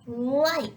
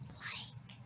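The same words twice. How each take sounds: First: It is said in a normal voice. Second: It is said in a whisper.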